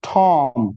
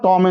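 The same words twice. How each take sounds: First: The first t is said with a puff. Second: The first t is said without a puff. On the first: The speaker calls it right. "it's Tom" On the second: The speaker calls it wrong. "It's not Tom and Jerry"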